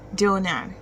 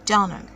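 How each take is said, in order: First: The second syllable has a full 'a' vowel. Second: The second syllable has a weak 'uh' vowel. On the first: The speaker calls it wrong. "instead of saying Nad" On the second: The speaker calls it right. "you should say Nud. ... the letter A in that name makes the uh sound"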